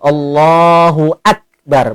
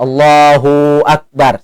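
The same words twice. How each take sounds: First: A firm glottal stop begins 'akbar'. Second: The 'hu' is stretched long into 'akbar'. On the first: The speaker calls it right. "Maka harus tegas huruf hamzahnya itu" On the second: The speaker calls it wrong. "Dipanjang ke hu, itu berarti seolah-olah ada huruf waw mati antara Allah dan bar itu. Maka itu pun salah"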